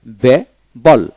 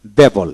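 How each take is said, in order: First: Bible very slowly as be, pause, bol; two separate beats in Bible; split into syllables. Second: Said in the usual way. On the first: Shown as a demonstration. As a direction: break Bible wide open after be. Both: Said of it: "দুই syllable আলাদা হয়ে যাবে".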